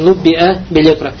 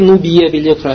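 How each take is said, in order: First: The first word has a glottal stop. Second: The first word has no glottal stop. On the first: The speaker calls it right. "должен говорить именно с хамзой" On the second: The speaker calls it wrong. "не говори Нуббия билекра"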